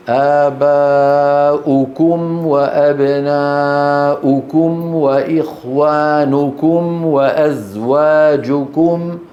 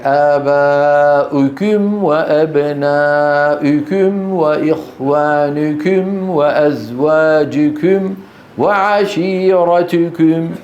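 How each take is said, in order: First: وأزواجكم slow with clear rounded u; pure damma. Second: وأزواجكم with the u fronted toward i, slow; damma mixed with kasra. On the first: Shown as a demonstration. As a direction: model the correct reading deliberately. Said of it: "ماذا عليه أن يقول؟". (وأزواجكم بضمة خالصة ببطء) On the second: Retold or imitated. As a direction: mimic a Turkish learner's kasra-tinged damma. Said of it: "هذا عند إخواننا بتركيا". (وأزواجكم بضمة مشوبة بكسرة ببطء)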